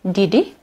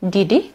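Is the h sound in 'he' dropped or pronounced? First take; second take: dropped; dropped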